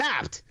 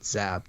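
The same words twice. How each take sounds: First: The word is said loudly, with excitement. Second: The word is said plainly, without excitement.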